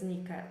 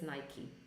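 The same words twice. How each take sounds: First: The brand name is read the Polish way. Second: The brand name is said the English way. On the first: The speaker calls it wrong. "as kids, we used to pronounce it as Nike" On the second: The speaker calls it right. "So it's Nike"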